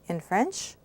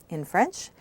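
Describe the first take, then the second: No difference in how they are said.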